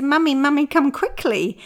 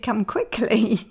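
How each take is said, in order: First: High, loud urgent call; child calling. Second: "Come quickly" said very slowly and deliberately; slow emphasis. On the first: Retold or imitated. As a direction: call mum down in a hurry. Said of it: "She said". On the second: Shown as a demonstration. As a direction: spell out "Come quickly" word by word, with no urgency. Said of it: "but she'd said".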